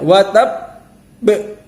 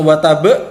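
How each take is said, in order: First: The final b is held, then released with echo. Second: The final b is cut off straight away. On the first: The speaker calls it right. "ditahan dulu... qalqalah kubro" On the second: The speaker calls it wrong. "bukan langsung watab"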